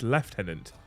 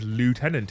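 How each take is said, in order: First: It is said the British way, like 'leftenant'. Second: It is said the American way, like 'lootenant'. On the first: This is the proper way to say it. The speaker calls it right. "and it's lieutenant" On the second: This is how someone else says it. The speaker calls it wrong. "when he says lieutenant"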